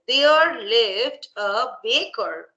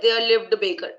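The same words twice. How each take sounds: First: Each word is said separately with small pauses. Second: The words run together in one breath. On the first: It is clear and effective. The speaker calls it right. "Like this" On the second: It shows influence of the mother language. The speaker calls it wrong. "you said in one breath"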